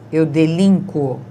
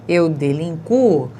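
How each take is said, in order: First: The stress falls on the I vowel. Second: The stress falls on the U vowel. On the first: "com A ou I fortes, tônicos" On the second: "tem o U do som forte"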